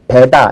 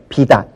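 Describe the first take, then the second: First: The first vowel is said with the mouth wide open. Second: The first vowel is said with the mouth barely open. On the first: The speaker calls it right. "배다 할 때는 입을 좀 많이 벌려야 되고요" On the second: The speaker calls it wrong. "비다 할 때는 입을 조금만 벌려도 돼요"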